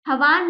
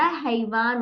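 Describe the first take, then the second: First: हवान said with a short a, no ai; wrong pronunciation. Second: हैवान with a clear ai in the first syllable; correct pronunciation. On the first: Teacher showing children the wrong way, हवान without ai. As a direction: say हवान with the ai sound missing. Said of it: "हवान नहीं होता". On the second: Teacher giving children the right sound, हैवान with ai. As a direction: stretch the ai in हैवान. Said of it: "हैवान होता है". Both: Shown as a demonstration.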